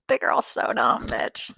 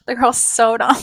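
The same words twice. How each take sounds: First: Laughing under breath. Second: Louder declaration. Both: Real, not acted.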